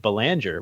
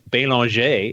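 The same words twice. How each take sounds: First: The name is said the American way. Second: The name is said the French way.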